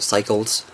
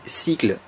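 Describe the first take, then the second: First: The word is pronounced the English way. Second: The word is pronounced the French way. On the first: "je trouve ça plus classe de le lire à, à l'anglaise" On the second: "ça se lit cycle en français"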